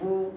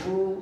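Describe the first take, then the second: Both takes have the same delivery.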